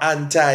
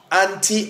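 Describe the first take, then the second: First: "anti" with a final eye sound; anti as "AN-tie". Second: "Anti" with a final ee sound; anti as "AN-tee". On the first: Preacher recapping the Greek meaning, "anti" said AN-tie. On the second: Preacher recapping the Greek meaning, "Anti" said AN-tee. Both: Shown as a demonstration. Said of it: "depending on how you want to pronounce it".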